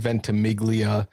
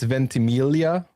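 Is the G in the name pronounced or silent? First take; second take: pronounced; silent. First: The G in the middle is pronounced. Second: The G in the middle is silent. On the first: This is the anglicized form. "most people say Ventimiglia" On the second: This is the traditional Italian form. "traditionally, it's Ventimiglia, so that, that Italian G is silent"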